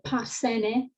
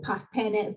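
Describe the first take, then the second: First: The middle consonant is an s sound. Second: The middle consonant is a th sound. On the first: This is how the Spartan text spells it. "in Laconian, we get uh, parsene" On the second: This is how the Spartans probably said it. "probably parthene"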